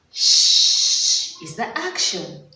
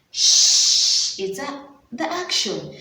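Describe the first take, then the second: First: "Shh" held, "action" stressed; slow emphasis. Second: "Shh" hissed long, then "the action" plain; unvoiced shh. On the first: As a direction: teach the sound slowly. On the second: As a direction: hiss the Shh first. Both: Shown as a demonstration.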